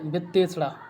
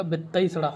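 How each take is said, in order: First: "वित्तेषणा" with a single e in ते; wrong form. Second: "वित्तईषणा" with a gliding तै vowel; correct form. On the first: Teacher reading the word to be corrected, single e vowel. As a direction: say "वित्तेषणा" with plain ते. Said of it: "तो ये हो जाएगा वित्तईषणा". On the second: Teacher correcting students, vowel glide sounded. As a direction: open ते into तई in "वित्तईषणा". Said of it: "तो ये हो जाएगा". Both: Shown as a demonstration.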